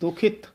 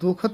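First: An i vowel follows the kh sound. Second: There is no vowel after the kh sound. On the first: The speaker calls it right. "ਖੱਖੇ ਤੇ ਸਿਹਾਰੀ ਲੱਗੀ ਹੋਈ ਹੈ" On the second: The speaker calls it wrong. "ਦੁਖਤ ਨਹੀਂ ਕਹਿਣਾ ਹੈ"

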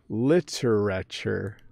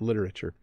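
First: The word is said slowly, every syllable clear. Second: The word is said quickly, syllables squeezed together. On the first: "let me say it slow" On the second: "we really compress that"

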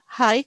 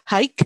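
First: No g sound is pronounced. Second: A g sound is clearly pronounced. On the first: The speaker calls it right. "G-nya itu tidak terlalu jelas ya. Yang benar high" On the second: The speaker calls it wrong. "Jadi bukan high"

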